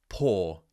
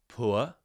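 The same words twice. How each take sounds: First: The vowel is a single long 'or' sound. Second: The vowel glides from rounded lips to neutral. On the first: "which would be poor in modern R P" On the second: "more of a standard traditional British R P accent"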